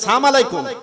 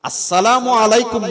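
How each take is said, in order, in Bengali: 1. শুভেচ্ছাটি 'sa' দিয়ে শুরু, 'as' বাদ দিয়ে। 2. শুভেচ্ছাটি 'as' দিয়ে শুরু, পুরোটা বলা হয়। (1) "সালাম দে কিরকম করে?" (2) "আসসালামু আলাইকুম মানে তোমার উপর শান্তি বর্ষিত হোক"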